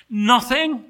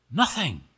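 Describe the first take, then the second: First: NOTHING pitched high and loud; incredulous echo. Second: Said in the usual way. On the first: Acted. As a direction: blurt "Nothing" in disbelief. Angel reacts in disbelief.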